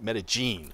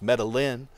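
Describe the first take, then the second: First: It is said the way Colombians say it. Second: It is said the way an English speaker would.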